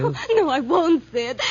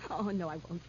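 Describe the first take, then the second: First: Loud, frantic protest; terrified denial. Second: Low, very soft, placating; cowed denial. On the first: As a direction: deny it desperately, voice raised. Denies as killer closes in. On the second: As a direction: back down in a small frightened voice. Backs down after threat. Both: Acted.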